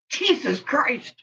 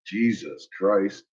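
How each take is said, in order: First: High, slow, laughing Jesus Christ; giggly, drawn-out Jesus Christ; laughing disbelief. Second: Low, slow, weary Jesus Christ; low, softer, drawn-out Jesus Christ; exasperated. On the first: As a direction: let Jesus Christ rise up slowly through a laugh. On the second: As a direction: sink into a tired Jesus Christ. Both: Real, not acted.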